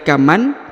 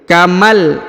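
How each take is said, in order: First: The n is pronounced clearly before the l. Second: The n merges into a held, stressed l. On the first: The speaker calls it wrong. "bukan lagi kaman karena ini sudah menghilang" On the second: The speaker calls it right. "langsung melebur ke huruf lam dan ditahan serta ditekan"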